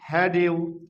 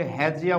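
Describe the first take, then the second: First: Said in the usual way. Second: "হ্যাজিয়া" with d and y fused into j; linked pronunciation. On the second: Shown as a demonstration. Teacher shows what it becomes, "হ্যাজিয়া" with a j link. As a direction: run it together as he-jia, "হ্যাজিয়া". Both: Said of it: "তাহলে আমরা এটাকে হ্যাজিয়া বলবো".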